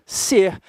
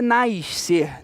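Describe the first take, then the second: First: NASCER split slowly as "na-ser"; single S sound. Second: NASCER slowly as "naish-ser"; extra carioca S. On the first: Teacher modelling for students, slow "na... ser" for NASCER. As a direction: say "nascer" in two slow pieces, one S sound. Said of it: "A pronúncia vai ser a mesma". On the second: Teacher showing what to avoid, "naish-ser" for NASCER. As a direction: say "nascer" with a hushing "ish" before the C. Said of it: "sem ser nascer". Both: Shown as a demonstration.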